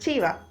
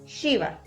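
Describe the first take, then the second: First: It begins with a stopped ch sound. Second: It begins with a hissing sh sound. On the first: The speaker calls it wrong. "ya no pueden volver a decir chiva" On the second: The speaker calls it right. "es ese sonido del aire"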